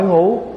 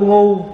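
First: The word is said on a dipping tone. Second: The word is said on a level tone.

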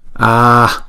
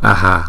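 First: The word ends in a lowered breath, no vowel. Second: A short 'a' echoes after the final breath. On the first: The speaker calls it right. "chúng ta đọc là A, A. Chúng ta hạ cái hơi ngoài sau thôi ha" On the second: The speaker calls it wrong. "chúng ta không đọc A hà"

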